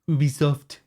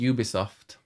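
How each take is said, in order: First: The name is said with a French pronunciation. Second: The name is said with an English pronunciation. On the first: "is the French because it is French" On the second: "I say Ubisoft"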